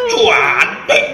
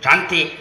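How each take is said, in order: First: It is said with strong, drawn-out emphasis. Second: It is said flatly, without emphasis. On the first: She is truly beautiful. The speaker calls it right. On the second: She is not really beautiful. The speaker calls it wrong. "nggak cantik itu"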